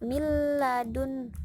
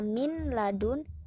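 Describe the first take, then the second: First: The n merges fully into the following l. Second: The n is clearly pronounced before the l. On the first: The speaker calls it right. "tapi langsung masuk miladun" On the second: The speaker calls it wrong. "tidak dibaca min ladun"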